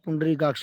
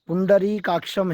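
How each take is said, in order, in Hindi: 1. शब्द के अंत में कोई म् की ध्वनि नहीं है। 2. शब्द के अंत में म् की ध्वनि है। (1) "वहाँ पे आप पुंडरीकाक्ष बोल रहे हैं" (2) "सुनिए सुनिए पुंडरीकाक्षम है"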